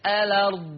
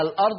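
First: "الأرض" without a glottal stop, as "alard"; hamza dropped. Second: Said in the usual way. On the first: Shown as a demonstration. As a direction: slide from an open lam straight into the ra in "الأرض". ("الأرض" بحذف الهمزة وفتح اللام: "أَلَرْض") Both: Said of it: "يبقى الأرض تصير الأرض".

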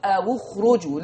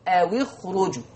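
First: أو اخرجوا as "awu khruju", waw rounded to u; أو اخرجوا بضم الواو; waw with damma, Warsh. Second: أو اخرجوا as "awi khruju", waw broken with i; أو اخرجوا بكسر الواو; waw with kasra, Hafs. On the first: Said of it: "هيضم الواو". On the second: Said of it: "حفص هيكسر الساكن الأول". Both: Shown as a demonstration.

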